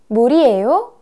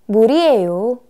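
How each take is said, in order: First: The pitch rises at the end. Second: The pitch falls at the end. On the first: It asks whether this is water. "Уже вопросительное, вопросительное предложение" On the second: It states that this is water. "И ответ"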